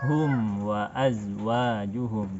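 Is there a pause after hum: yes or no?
no. The words flow on without a break after hum. The speaker calls it right. "Tidak kita jeda"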